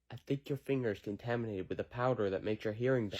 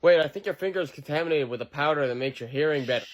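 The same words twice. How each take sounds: First: Much softer, hushed; quiet. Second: Said in the usual way. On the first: Acted. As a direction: say it again, far quieter. Repeated line, growing quieter.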